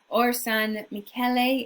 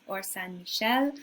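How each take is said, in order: First: The name is said with Italian pronunciation. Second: The name is said with French pronunciation. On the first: "is the Italian pronunciation" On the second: "that is a French pronunciation of it"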